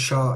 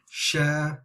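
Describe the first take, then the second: First: The lips stay closed in during the vowel. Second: The lips open wide during the vowel. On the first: The speaker calls it wrong. "It's not sha" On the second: The speaker calls it right. "it's sha, Make sure we're opening the lips"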